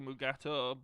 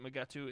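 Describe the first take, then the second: First: The name ends with an 'oh' sound. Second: The name ends with an 'oo' sound. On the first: This is the official form of the name. "Technically Mugato" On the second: This is how people commonly said the name. "everyone pronounced it Mugatu"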